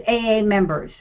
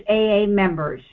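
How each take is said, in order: No difference in how they are said.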